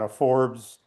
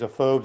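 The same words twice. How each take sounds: First: The name is said with an R sound. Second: The name is said without an R sound. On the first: This is the branch that went back to Scotland. The speaker calls it wrong. "not a Forbes" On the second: This is the family branch that kept the spelling without R. The speaker calls it right. "didn't didn't pronounce the R"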